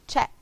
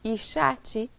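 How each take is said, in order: First: The word ends cleanly on the final consonant. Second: An extra i vowel is added at the end. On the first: The speaker calls it right. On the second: The speaker calls it wrong.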